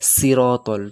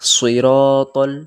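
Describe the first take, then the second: First: The s is thin, without rounded lips. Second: The s is thick, with rounded lips. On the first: The speaker calls it wrong. "সিন সিনের মতো সবাই উচ্চারণ করে সিরাতাল, তো সেটা ভুল" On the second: The speaker calls it right. "সদে মোটা করে উচ্চারণ করবেন, সিরাতাল মুখ গোল করে"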